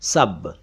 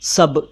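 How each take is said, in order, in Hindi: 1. यह शब्द पूरा और ध्यान से बोला गया है। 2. यह शब्द जल्दी से छोटे रूप में बोला गया है। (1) "सही उच्चारण अरबी में सब है" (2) "जल्दी में इसको सब कह दिया जाता है"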